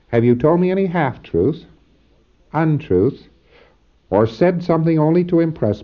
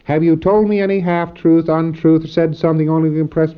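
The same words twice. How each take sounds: First: Short pauses separate each item in the list. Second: The items run together without pauses between them. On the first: The speaker calls it right. "you all give each one a split second to answer. So it's properly said" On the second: The speaker calls it wrong. "you don't say"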